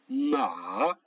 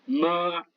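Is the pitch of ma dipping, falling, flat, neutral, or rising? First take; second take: dipping; flat. First: The pitch dips low and then rises. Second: The pitch stays high and level. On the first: It means horse. "Le troisième ton qui descend et qui monte" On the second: It means mother. "Premier ton, c'est un accent plat"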